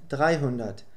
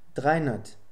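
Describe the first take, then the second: First: It is said at a normal pace, less reduced. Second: It is said more fluently, with sounds run together.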